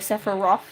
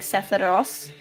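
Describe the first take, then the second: First: The name is said with an English pronunciation. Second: The name is said with a Japanese pronunciation. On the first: "instead of like" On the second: "in Japanese they pronounce it like"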